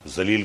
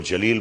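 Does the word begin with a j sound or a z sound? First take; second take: z sound; j sound. First: The word begins with a z sound. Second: The word begins with a j sound. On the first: The speaker calls it right. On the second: The speaker calls it wrong.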